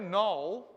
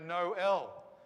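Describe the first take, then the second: First: The two vowels merge into one gliding sound. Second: The two vowels are pronounced as separate syllables. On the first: The speaker calls it wrong. "we don't go Noel, which is what we usually go if there's an O and an E together" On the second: The speaker calls it right. "because the little dots tell us"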